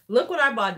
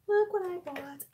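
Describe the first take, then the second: First: Said in the usual way. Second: Breathy conspiratorial whisper. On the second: Real, not acted. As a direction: whisper it like a secret. Repeats it whispered.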